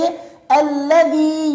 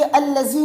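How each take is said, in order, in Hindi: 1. बीच का व्यंजन नरम th की ध्वनि है। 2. बीच का व्यंजन z की ध्वनि है। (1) "बल्कि" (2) "ये अल्लज़ी नहीं है"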